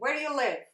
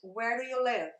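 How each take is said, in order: First: It is said fast, with words run together. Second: It is said at a normal pace.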